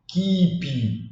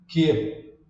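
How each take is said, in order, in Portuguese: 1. O P final é solto, dá para ouvir. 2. O P final é cortado, com a boca fechada. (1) "você não vai falar ... Ou keep" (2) "Não, é keep"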